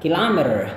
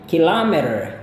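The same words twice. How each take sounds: First: The word is said quickly and compactly. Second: The word is said slowly and drawn out. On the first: "Kalau misalkan Anda mau ngomong dengan lebih cepat" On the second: "saya cukup panjangin ya supaya kalian bisa mendengar uh, perbedaannya"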